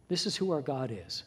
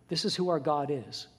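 The two takes are said the same way.

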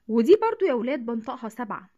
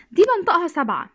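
First: Said in the usual way. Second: Loud, higher دي, pointing at the first number; stress on دي. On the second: Shown as a demonstration. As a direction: hit دي hard, then بنطقها سبعة. (نبرة قوية على "دي")

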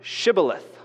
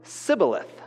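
First: Shibboleth with a clear sh at the start; correct Shibboleth. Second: Sibboleth with a plain s for the sh; mispronounced Sibboleth, s not sh; wrong Sibboleth. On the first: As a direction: say Shibboleth, opening on sh. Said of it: "Pronounce the word Shibboleth". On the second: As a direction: say Sibboleth, swapping sh for s. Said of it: "couldn't pronounce it properly". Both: Shown as a demonstration.

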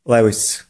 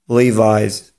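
First: "Lewis" said as LEH-vees, the Polish way; mispronounced Levi's. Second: "Levi's" said LEE-vize; correct Levi's. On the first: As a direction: say the brand Levi's as "Lewis", with short vowels. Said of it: "nieprawidłowa wymowa w języku angielskim może brzmieć". (błędna polska wymowa: "Lewis" zamiast „liwajz”) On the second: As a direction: say "Levi's" with an EYE sound and final Z. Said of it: "Prawidłowa wymowa tego słowa brzmi". (poprawna wymowa: "Levi's" jak „liwajz”) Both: Shown as a demonstration.

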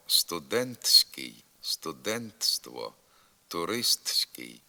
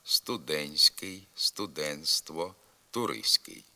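First: Slow студентський, студентство, туристський with the т fully sounded; spelled-out pronunciation. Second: Студентський, студентство, туристський with т dropped before с; simplify студентський, студентство, туристський, no т before the suffix; silent т. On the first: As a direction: articulate every written т in студентський, студентство, туристський. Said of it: "Пишемо". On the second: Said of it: "а вимовляти треба". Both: Shown as a demonstration.

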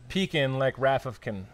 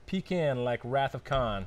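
First: Slow "pecan" as PEE-kin, "Khan" bent to "kin"; Khan rhymed with PEE-kin. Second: Slow "pecan" as PEE-kin, "Khan" as open KAHN; PEE-kin, then Khan. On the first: Arguing pronunciation with co-host, "pecan" as PEE-kin, "Khan" as "kin". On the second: Arguing pronunciation with co-host, "pecan" as PEE-kin, "Khan" as KAHN. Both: Shown as a demonstration. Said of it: "It's pronounced pecan".

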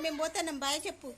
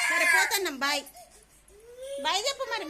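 First: Said in the usual way. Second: Loud mock goodbye. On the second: Calling goodbye to sulking daughter.

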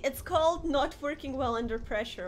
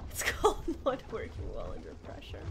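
First: Said in the usual way. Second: Breathy unvoiced repeat after a laugh; whispered laughing repeat. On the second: Real, not acted. Streamer repeating her excuse to chat in a laughing whisper. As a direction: whisper it again, amused.

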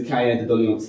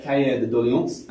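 First: Cahier de Doléances in a French accent, kʰaɛ ðə dɔliɑns; quick French-accented Cahier de Doléances. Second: Cahier de Doléances in a French accent, kʰeə ðə dɔliɑ̃ns; French-accented Cahier de Doléances with nasal ending. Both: Shown as a demonstration. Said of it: "I do apologise for my French accent".

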